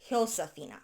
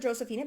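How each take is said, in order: First: The name begins with an H sound. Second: The name begins with an English J sound. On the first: "their J's are pronounced as an H" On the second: "because English is my first language"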